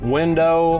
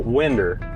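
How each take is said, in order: First: The word ends in a clear 'oh' sound. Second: The word ends in an 'er' sound. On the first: "instead of saying the O, really pronouncing, enunciating that" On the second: "we just add an E R to it. So winder"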